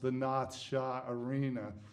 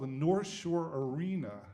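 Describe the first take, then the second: First: It is said in a local Boston accent. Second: It is said in a plain standard accent.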